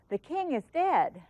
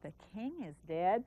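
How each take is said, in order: First: It is said with surprise and emotion. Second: It is said with disbelief, like a question.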